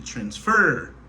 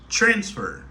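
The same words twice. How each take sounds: First: The stress is on the last syllable. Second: The stress is on the first syllable. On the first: The speaker calls it wrong. "si je accentué sous dernière syllabe là, si je dit transfer" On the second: The speaker calls it right. "Mais la vraie prononciation, c'est transfer"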